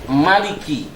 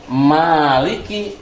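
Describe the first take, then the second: First: The first vowel is kept short. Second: The first vowel is held long. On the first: God is the king who rules. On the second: God is the owner of everything.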